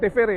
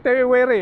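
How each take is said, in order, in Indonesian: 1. Konsonan di tengah berbunyi seperti V. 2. Konsonan di tengah berbunyi seperti W. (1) "bukan Tevere ya" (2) "dibaca W ya. Jadi Tevere ya"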